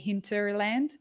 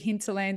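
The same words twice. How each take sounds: First: It is said with the R sounds. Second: It is said without the R sounds.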